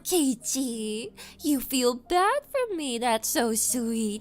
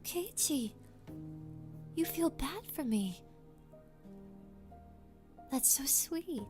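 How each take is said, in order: First: It is said in a smug, mocking tone. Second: It is said in a warm, sincere tone. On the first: The speaker is teasing the listener. "I read it in a mocking tone" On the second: The speaker is genuinely touched. "when in reality it might be like"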